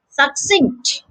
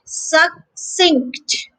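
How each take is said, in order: First: Said in the usual way. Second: Succinct in two parts, suc, then sinkt; slow, separated "Suc... cinct"; split into syllables. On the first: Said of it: "the stress is on the second syllable". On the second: Shown as a demonstration. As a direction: pause between the syllables of Succinct. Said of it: "So the second syllable here is cinct".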